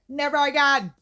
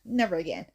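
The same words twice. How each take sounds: First: Higher and louder, emphatic vow. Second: Said in the usual way. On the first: Shown as a demonstration. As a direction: belt out the vow.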